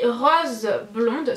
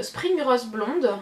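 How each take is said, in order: First: Said in the usual way. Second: Spring Rose blonde read slowly in a strong French accent; careful, very slow attempt at English on "Spring Rose blonde"; self-conscious English accent. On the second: Shown as a demonstration. Vlogger reading an English scent name, slow French-accented English. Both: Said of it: "mon accent il est atroce".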